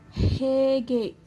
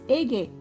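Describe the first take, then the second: First: The word begins with an h sound. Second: The word begins with a vowel, no h. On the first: The speaker calls it right. "Hege means how" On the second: The speaker calls it wrong. "They will pronounce it as ege"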